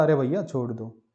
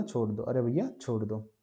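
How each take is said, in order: First: Said in the usual way. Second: Softer, strained plea in an odd voice; strained after pushing. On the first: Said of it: "तो उसने बोला". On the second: Retold or imitated. Teacher voicing the dog begging while straining, softer strained plea. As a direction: squeeze it out like you're straining. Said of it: "जोर देने के बाद बोला".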